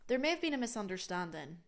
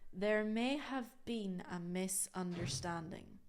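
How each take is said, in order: First: It is said fast, with words joined. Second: It is said slowly, word by word.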